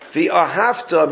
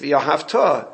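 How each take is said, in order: First: The stress falls on the penultimate syllable. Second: The stress falls on the final syllable. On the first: The action happened in the past. "means and you loved, past tense" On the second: The action will happen in the future. "So the correct pronunciation is"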